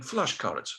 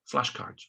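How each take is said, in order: First: Put-on Russian-accented "Flashcards", hard ending. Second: Said in the usual way. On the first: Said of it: "This is a Russian accent now".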